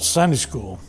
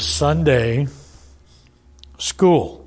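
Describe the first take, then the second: First: The stress falls on the first word. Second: The stress falls on the second word. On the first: It names a church class held on Sundays. "we call it Sunday school" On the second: It names ordinary schooling that happens on Sunday. "But back when it began, it was Sunday school, because the purpose of it was primarily to ... teach them reading and writing and arithmetic on Sunday"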